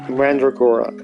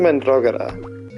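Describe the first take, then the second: First: The word is said with an American accent. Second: The word is said with a Spanish accent. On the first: "with an American accent" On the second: "I have a Spanish accent"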